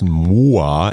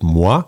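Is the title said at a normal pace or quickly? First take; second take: normal; quickly. First: The title is said at a normal pace. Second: The title is said quickly, run together.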